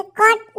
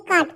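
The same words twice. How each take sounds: First: कट with a short clipped a, the wrong reading; कट with a short a, not काट; wrong short vowel. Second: काट with a long open aa; correct long vowel. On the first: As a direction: say कट short, as the mistake. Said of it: "कट नहीं पढ़ेंगे". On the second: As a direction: stretch the aa in काट, the right reading. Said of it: "काट पढ़ेंगे". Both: Shown as a demonstration.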